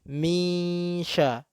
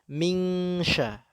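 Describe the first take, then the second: First: The n becomes a nasal hum into sh. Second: The n becomes a clear ng before sh. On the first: The speaker calls it right. "Ini ketika misha" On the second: The speaker calls it wrong. "Orang Indonesia seringnya menyebut dengan mingsha"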